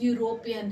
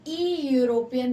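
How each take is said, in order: First: The word begins with a 'y' sound. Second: The word begins with an 'ee' vowel sound. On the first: The speaker calls it right. "Simply यूरोपियन है" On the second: The speaker calls it wrong. "ई यूरोपियन नहीं है"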